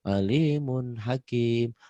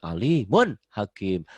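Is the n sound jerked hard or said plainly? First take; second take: plain; jerked. First: The n sound is said clearly without pressing. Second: The n sound is pressed and jerked hard. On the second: "kalau disentak tuh hanya latihan"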